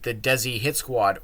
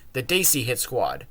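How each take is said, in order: First: The first syllable sounds like 'dess'. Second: The first syllable sounds like 'day'. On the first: The speaker calls it wrong. "not Desi like they call it" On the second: The speaker calls it right. "or pronounced properly"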